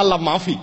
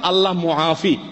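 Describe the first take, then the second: First: The second word begins with a plain 'ma' sound. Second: The second word begins with a 'mu-a' sound. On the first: There is no God. The speaker calls it wrong. "তো ওইটারে বলে" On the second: God is the one who gives relief. The speaker calls it right. "শব্দটা হলো আসলে"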